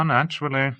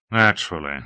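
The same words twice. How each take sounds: First: Higher, casual naturally trailing off; naturally said airily and high; Hawke, breezy. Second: Naturally said low and tight; a thick, strained naturally; tense. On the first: Acted. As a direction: toss the word off lightly. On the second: A narrator's reading. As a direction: hold back the tension. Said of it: "Tension thickened his voice".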